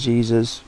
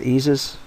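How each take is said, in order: First: The name has the ordinary English J sound. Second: The name has the Brazilian hidden J sound. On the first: "I'm just going to say Jesus" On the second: "they pronounce it with a hidden J"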